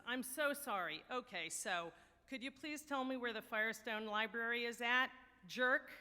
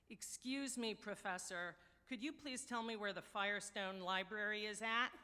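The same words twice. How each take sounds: First: Louder, pointed fake-polite comeback; apologize, then land the final insult hard; mock apology. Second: Lightly imitated New York borough accent. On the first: Young man answering a condescending professor, cheeky mock apology. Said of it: "the young man apologizes". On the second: Newcomer stopping a snooty professor for directions, New York borough accent. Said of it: "in a heavy New York borough accent".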